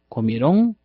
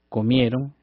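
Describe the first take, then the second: First: The stress falls on the final syllable. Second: The stress falls on the second-to-last syllable. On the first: It is how the word would sound with an accent mark. The speaker calls it wrong. "porque sonarían comieron" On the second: It is the normal past tense form without an accent mark. The speaker calls it right. "no llevan tilde en esa terminación"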